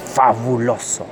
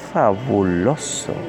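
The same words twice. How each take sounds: First: The word is said in an angry tone. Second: The word is said in a sensual tone. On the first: "Cuando digas fabuloso con rabia" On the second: "con sensualidad le podría decir fabuloso"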